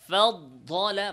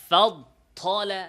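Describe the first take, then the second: Both takes have the same delivery.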